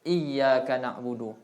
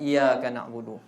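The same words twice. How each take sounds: First: The y sound in iyyaka is doubled. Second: The y sound in iyyaka is single. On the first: The speaker calls it right. "kena jaga tasydidat" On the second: The speaker calls it wrong. "dia tak ada tak ada tasydid"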